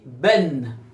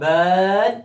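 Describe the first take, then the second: First: The vowel is a front 'e' sound. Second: The vowel is an open 'a' sound. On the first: The speaker calls it right. "il y a ben" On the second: The speaker calls it wrong. "Il n'y a pas ban ici"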